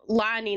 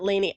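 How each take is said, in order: First: The first vowel sounds like 'ah'. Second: The first vowel sounds like 'ay'. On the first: The speaker calls it right. "my name is Lani" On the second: The speaker calls it wrong. "not Lainey"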